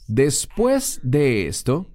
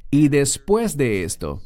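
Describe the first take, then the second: First: "después de esto" drawn out slowly, después leaned on; slow stress on después. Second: Said in the usual way. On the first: Shown as a demonstration. Preacher slowly spelling out the key phrase "después de esto" for the congregation. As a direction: linger on "después de esto", weighting después. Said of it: "La frase". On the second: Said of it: "esas tres palabras en el texto griego".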